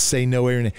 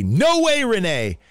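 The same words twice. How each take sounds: First: Said in the usual way. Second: High, drawn-out "No way, Renee"; preacher's booming call. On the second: Retold or imitated. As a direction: belt it out like a preacher rallying a crowd. Acted preacher's call to audience.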